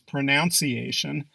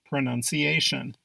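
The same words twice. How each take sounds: First: The second syllable sounds like 'noun'. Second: The second syllable sounds like 'nun'. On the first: The speaker calls it wrong. "You probably hear this word being pronounced as" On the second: The speaker calls it right. "Proper pronunciation is"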